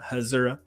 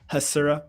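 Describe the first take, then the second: First: The middle consonant is a buzzing Z sound. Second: The middle consonant is a hissing S sound. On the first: The speaker calls it wrong. "not Hasura" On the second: The speaker calls it right. "a s Hasura without a Z"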